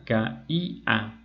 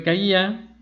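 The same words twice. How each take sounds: First: "caía" slowly in three syllables, ca, í, a; separated syllables. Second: Said in the usual way. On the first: Shown as a demonstration. Teacher demonstrating a broken diphthong, "caía" split syllable by syllable. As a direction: split "caía" with a gap before and after the stressed í. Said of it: "se rompe el diptongo". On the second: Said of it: "la I se acentúa".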